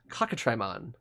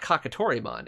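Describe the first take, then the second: First: The name runs 'k' straight into 'tri'. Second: The name has a full 'to' syllable before 'ri'. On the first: It echoes the word cockatrice. The speaker calls it right. "It's Kakatrimon, as in a cockatrice" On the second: It just copies the Japanese spelling and loses the meaning. The speaker calls it wrong. "this is not Kakatorimon"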